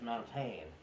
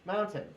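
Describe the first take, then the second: First: The last syllable has a full, spelled-out vowel. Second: The last syllable is reduced to a short n sound. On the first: The speaker calls it wrong. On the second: The speaker calls it right.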